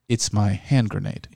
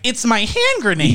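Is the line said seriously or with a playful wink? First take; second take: serious; winking. First: It is said in a completely serious tone. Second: It is said in a playful, winking tone.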